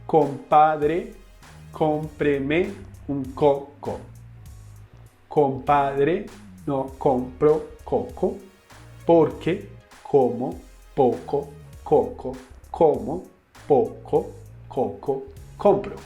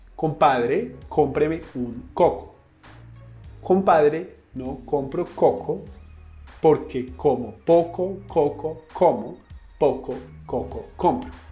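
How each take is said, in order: First: It is said slowly. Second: It is said fast.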